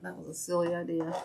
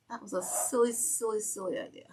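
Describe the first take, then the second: First: Said in the usual way. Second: Mock silly voice. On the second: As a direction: tease the idea in a silly high voice.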